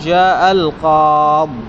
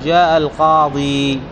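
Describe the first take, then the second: First: The last word ends on a bare d sound. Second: The last word ends with a long i vowel. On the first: "يجوز حذفها ... ويكون الحرف ساكنا" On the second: "الأفصح في الرفع والجر الوقف عليه بإثبات الياء"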